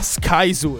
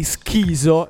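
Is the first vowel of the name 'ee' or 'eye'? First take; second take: eye; ee. First: The first vowel sounds like 'eye', as in 'sky'. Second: The first vowel sounds like 'ee', as in 'skee'. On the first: The speaker calls it right. "E lui mi fa" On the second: The speaker calls it wrong. "All'inizio ho sbagliato la pronuncia"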